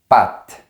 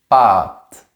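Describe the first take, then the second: First: The vowel is made with the tongue forward. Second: The vowel is made with the tongue back. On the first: This is how it is said in France. "En France, on prononce toujours le mot patte comme ça, avec la langue plus vers l'avant" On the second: This is how it is said in Quebec. "au Québec, ils ont un autre son et ils disent pâte. Comme ça, avec la langue plus en arrière"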